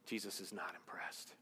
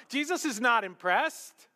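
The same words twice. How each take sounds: First: Hushed breathy whisper of the line. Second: Louder, higher proclamation; emphatic. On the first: Preacher whispers to the congregation. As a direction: drop to a whisper to draw them in. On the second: Preacher proclaims the point to the congregation. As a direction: ring it out to the back row. Preacher repeats the line loudly. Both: Acted.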